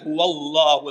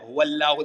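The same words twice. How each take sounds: First: The l sound is thick and deep. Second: The l sound is thin and light. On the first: The speaker calls it right. "ഫത്ഹ ആയതുകൊണ്ട് ഹുവല്ലാഹു എന്ന് പറയാം" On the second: The speaker calls it wrong. "ഹുവല്ലാഹു എന്ന് പറയില്ല"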